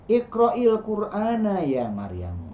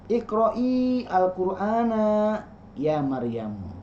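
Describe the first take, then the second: First: The words are joined, linking into the article. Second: Each word is said separately, without linking.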